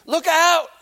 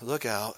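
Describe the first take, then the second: First: The phrase is said loudly and with urgency. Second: The phrase is said quietly and without urgency. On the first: The speaker calls it right. "You went like this" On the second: The speaker calls it wrong. "Did you say it like this? ... It's not how you did it"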